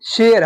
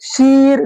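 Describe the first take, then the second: First: The vowel is a short-drawn 'e' sound. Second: The vowel is a drawn-out 'ee' sound. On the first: The speaker calls it right. "इसको हम खींच कर नहीं पढ़ रहे हैं" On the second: The speaker calls it wrong. "अगर हम पढ़ेंगे शेर को शीर, देखिए बिगड़ गया"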